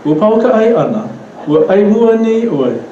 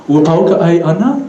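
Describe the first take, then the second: First: High in the middle, "ana" and "oi" dropping; Pidgin-style question intonation. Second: "ana" climbs at the end; English question intonation. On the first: Teacher correcting students' intonation, rise then drop to "ana". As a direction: peak before the end, then fall on "ana". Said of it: "always go back to Pidgin". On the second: Teacher mimicking students' off intonation, rising on "ana". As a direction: Hawaiian question with an English-style rise on "ana". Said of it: "follow the English intonation when speaking". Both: Shown as a demonstration.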